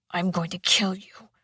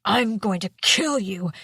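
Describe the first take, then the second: First: Menacing whispered threat; growled whisper. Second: Growled. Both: A narrator's reading. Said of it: "he growled".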